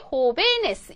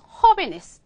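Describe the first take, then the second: First: The stress is on the second syllable. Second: The stress is on the first syllable. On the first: "뒤에서 두 번째 음절 여기 호베네스 이렇게 읽어야지 돼요" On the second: "허에 아센트 있었잖아요. ... 똑같이 읽어야 된다는 거죠"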